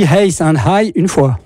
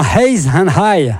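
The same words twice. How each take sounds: First: "Hayes and High une fois" in a jokey Belgian French accent; mock Belgian accent. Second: Said in the usual way. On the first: Shown as a demonstration. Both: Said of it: "sauf si tu dis Hayes and High une fois".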